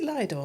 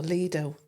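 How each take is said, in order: First: "Lido" pronounced LIE-doh. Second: "Lido" pronounced LEE-doh. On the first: Asking the guest which pronunciation is right, Lido as LIE-doh. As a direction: rhyme the start of "Lido" with "eye". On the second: Offering the guest the other pronunciation, Lido as LEE-doh. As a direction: rhyme the start of "Lido" with "see". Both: Shown as a demonstration. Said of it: "Is it Lido or Lido?".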